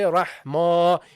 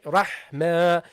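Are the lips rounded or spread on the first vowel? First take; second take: rounded; spread. First: The first vowel is said with rounded lips. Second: The first vowel is said with unrounded lips. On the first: The speaker calls it wrong. "You don't say" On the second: The speaker calls it right. "You say"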